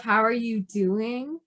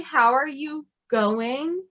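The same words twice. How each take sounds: First: Slow, with DOING drawn out; measured question, leaning on "doing"; stress on DOING. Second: Slow, with GOING drawn out; stress on GOING. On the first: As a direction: set apart the word "doing". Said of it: "instead of". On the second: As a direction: set apart the word "going". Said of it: "so they would say". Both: Shown as a demonstration.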